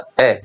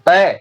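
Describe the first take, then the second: First: The vowel is said very softly and quietly. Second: The vowel is said loudly and forcefully. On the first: "एकदम धीरे" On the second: "काफ़ी तेज़ बोलना पड़े"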